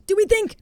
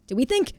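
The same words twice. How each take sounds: First: "Do we think?" jumped up high with a squeak on "we"; "we" pitched way up and a touch louder; high squeaky repeat. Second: Said in the usual way. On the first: Real, not acted. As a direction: squeak the question up high, hopeful.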